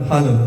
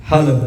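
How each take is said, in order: The two takes are said the same way.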